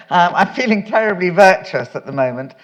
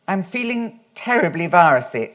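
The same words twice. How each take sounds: First: Said in the usual way. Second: Virusy said as vai-ruh-see, a slip for virtuous; misreading. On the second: Real, not acted. Reading her letter aloud, slips and says "virusy" by mistake. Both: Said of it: "sorry, virus".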